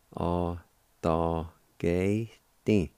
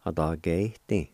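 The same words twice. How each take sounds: First: Slow demo. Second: Said in the usual way. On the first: Shown as a demonstration. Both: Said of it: "like this".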